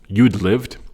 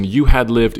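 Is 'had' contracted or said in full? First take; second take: contracted; full. First: Had shrinks to a slight d sound. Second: The word had is said fully and separately.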